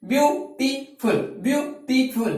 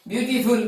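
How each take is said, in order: First: beautiful in three separate beats; teacher counting out the syllables of beautiful; split into syllables. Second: Said in the usual way. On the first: Shown as a demonstration. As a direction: pause between each of the three syllables of beautiful. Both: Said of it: "তিনিটা আছে।".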